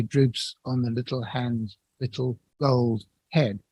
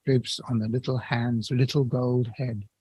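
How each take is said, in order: First: "gold" given its full normal stress, slow. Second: "gold" kept light, the beat falling on "little" and "head"; gold unstressed. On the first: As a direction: lean on "gold" as in plain prose, breaking the beat. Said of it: "You wouldn't say". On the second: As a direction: let "gold" slip by unstressed in the rhythm. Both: Shown as a demonstration.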